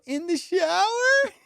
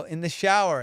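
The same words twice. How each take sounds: First: Very high, drawn-out echo question; incredulous. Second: Said in the usual way. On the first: Retold or imitated. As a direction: imitate her in slow, high disbelief. Imitates her incredulous echo.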